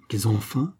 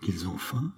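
First: Full-voiced incredulous cry; exclaimed. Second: Much softer, barely said in disbelief; stunned murmur. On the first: Queen crying out at Charny's news, incredulous. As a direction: throw it back at him, outraged. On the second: Queen hearing the people are hungry, stunned and soft. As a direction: let it slip out, half to herself. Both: A narrator's reading. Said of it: "s'écria la reine".

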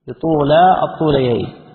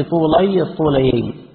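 First: "بطولا" pronounced tu-laa; long "aa" ending. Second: "بطولي" pronounced tu-lay; "ay" ending. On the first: Reader corrects to long aa ending. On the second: Reader retries a word's vowel ending. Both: Real, not acted.

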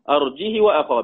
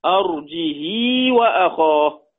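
First: "أرجه وأخاه" with no hamza and a short "hi"; short kasra, no hamza. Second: "أرجه وأخاه" recited slowly with a long "hii"; lengthened kasra, no hamza. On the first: Teacher showing Qalun's reading, "أرجه وأخاه" with short "hi". بدون همزة وكسر وقصر. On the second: Teacher showing Warsh's reading, "أرجه وأخاه" as arjihii, slow. وكسر وصلة. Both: Shown as a demonstration.

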